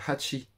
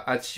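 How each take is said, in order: First: The starting h sound is clearly breathed. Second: The starting h sound is dropped. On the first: The speaker calls it right. "on dit hachi" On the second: The speaker calls it wrong. "On dit pas hachi"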